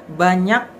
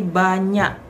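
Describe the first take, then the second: First: Banyak with a clear, released final k; Jakarta pronunciation. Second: Banyak ending in a glottal stop instead of k; Aceh pronunciation. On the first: Teacher showing the Jakarta banyak with final k. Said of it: "Misalkan banyak itu bukan banyak". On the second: Teacher demonstrating how Aceh people end banyak in a glottal stop. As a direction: cut banyak off with a glottal catch, slowly. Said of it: "menyebutkan dengan koma". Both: Shown as a demonstration.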